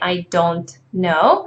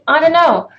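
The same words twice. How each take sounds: First: Every word is pronounced fully and separately. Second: The words are run together in reduced form. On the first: The speaker calls it wrong. "We don't say I don't know" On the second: The speaker calls it right. "We just say I don't know"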